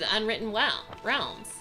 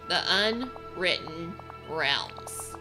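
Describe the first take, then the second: First: It is said at normal speed. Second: It is said slowly.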